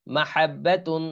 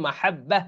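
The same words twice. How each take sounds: First: "মাহাব্বাতুন" with doubled b and sounded "তুন"; full ending. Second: "মাহাব্বা" closing on a breathed h; pausal ending. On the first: Teacher reading the spelled word unstopped, "মাহাব্বাতুন" with full ending. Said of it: "এখানে যদি থামি". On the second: Teacher showing the word when one stops, "মাহাব্বা" with pausal h. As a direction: stop on "মাহাব্বা", doubled b, final h. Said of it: "এখানে যদি থামি তাহলে কি হবে?". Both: Shown as a demonstration.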